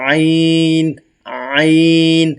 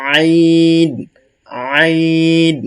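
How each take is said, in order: No difference in how they are said.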